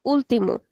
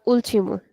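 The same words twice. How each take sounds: First: "último" with a hard t, first syllable not punched; plain t in "último"; unaccented European pronunciation. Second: "último" with ch for t, first syllable not punched; ch sound in "último"; unaccented Brazilian pronunciation. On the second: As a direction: say "último" as ool-chee-mo, lightly weighted start. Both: Shown as a demonstration. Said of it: "If I didn't have the accent here".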